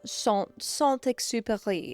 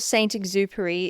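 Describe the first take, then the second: First: The name is said with French pronunciation. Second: The name is read out as English spelling. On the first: "if you're French" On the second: "If you're an Aussie trying to read it just as it is"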